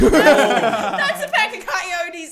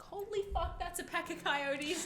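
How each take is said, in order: First: Loud, high, long-drawn alarm; hammed-up shriek through laughter; mock panicked cry. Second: High, soft, stretched-out realization; imitating a hushed panic; hushed alarm. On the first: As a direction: wail it out in comic panic. Repeats coyote alarm, now loudly. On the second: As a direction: squeak it quietly so the animals don't notice. Retelling spotting coyotes in the distance.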